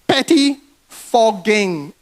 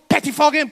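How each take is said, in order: First: The word is said slowly and deliberately. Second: The word is said at normal speed.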